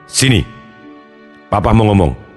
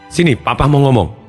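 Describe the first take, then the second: First: The voice is at a low, deep pitch. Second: The voice is at a normal, higher pitch.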